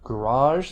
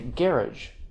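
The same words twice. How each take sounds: First: It is said with an American pronunciation. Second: It is said with a British pronunciation. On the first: "that works in American English" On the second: "a lot of British people say garage"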